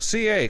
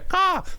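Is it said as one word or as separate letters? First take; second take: separate letters; one word. First: It is spelled out as two separate letters. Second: It is said as a single syllable word.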